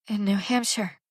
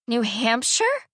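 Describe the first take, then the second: First: Barely managed. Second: Dismayed question. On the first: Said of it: "Anna managed". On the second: Daughter dismayed by moving news. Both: Acted.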